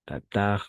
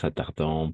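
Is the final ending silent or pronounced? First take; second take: silent; pronounced. First: The word ends without a pronounced ending. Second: The word ends with a pronounced nasal vowel. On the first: The speaker calls it right. "E N T à la fin, on ne le prononce jamais" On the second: The speaker calls it wrong.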